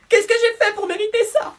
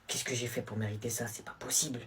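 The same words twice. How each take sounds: First: Very high, put-on wronged voice; melodramatic girlfriend. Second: Low, soft dejected question; glum complaint. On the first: Girlfriend lamenting to her boyfriend, very high mock despair. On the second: Acted. Student given detention, low glum complaint. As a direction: mutter it low and defeated.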